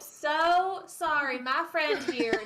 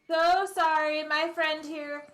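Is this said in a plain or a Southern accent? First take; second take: Southern; plain. First: It is said in a Southern American accent. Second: It is said in a plain, unaccented voice. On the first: The speaker calls it right. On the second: The speaker calls it wrong.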